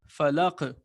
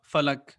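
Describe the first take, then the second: First: The final consonant ends with a slight echoing bounce. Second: The final consonant stops flatly without any bounce. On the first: The speaker calls it right. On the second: The speaker calls it wrong.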